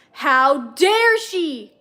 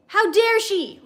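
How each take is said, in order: First: Growled. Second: Higher, furious explosion of rage; angry outburst. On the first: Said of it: "Rizzler growled". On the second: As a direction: blow up at him, angrier. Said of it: "exploded again, more angrily". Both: A narrator's reading.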